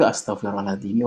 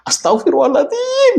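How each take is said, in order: First: It is said in a sincere, remorseful tone. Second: It is said as an exasperated, offhand exclamation. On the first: It is a genuine admission of wrongdoing. The speaker calls it right. "itu benar-benar pengakuan dosa" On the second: It is a careless outburst rather than repentance. The speaker calls it wrong. "Itu istighfar kita perlu diistighfari"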